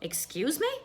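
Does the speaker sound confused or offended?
offended. It sounds offended and indignant. The listener took offense at what was said. "then I would be rather offended"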